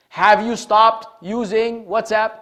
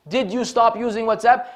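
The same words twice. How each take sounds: First: "Have you stopped using WhatsApp?" said slowly, as a question opening on Have; slow model question starting with Have; clear question form. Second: "Did you stop using WhatsApp?" with stop stressed and a rising end, a light laugh; second model question, amused and rising. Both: Shown as a demonstration. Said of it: "restructure the sentence by beginning with what is supposed to".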